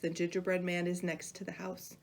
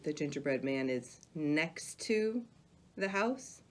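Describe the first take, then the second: First: The whole sentence flows evenly without highlighting. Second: One phrase is paused, louder and slower.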